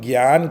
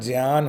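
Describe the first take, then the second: First: The word begins with a g sound. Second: The word begins with a j sound. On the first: The speaker calls it wrong. "जो हम ज्ञान कहते हैं वो आधा ग और यान का उच्चारण करते हैं" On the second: The speaker calls it right. "लेकिन एक्चुअल में ये उच्चारण ज्ञान होता है"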